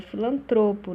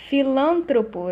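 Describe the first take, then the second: First: "filantropo" stressed on TRO; penultimate stress. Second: "Filântropo" stressed on LÂN; stress shifted early. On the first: Teacher correcting the error, "filantropo" stressed on TRO. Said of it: "é filantropo". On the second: Teacher showing the error, "Filântropo" stressed on LÂN. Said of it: "Deslocamento do acento tônico". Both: Shown as a demonstration.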